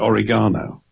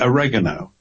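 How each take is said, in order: First: It is said with a British pronunciation. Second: It is said with an American pronunciation. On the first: "Whereas we say oregano" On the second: "you have, how do you pronounce it? Is it oregano?"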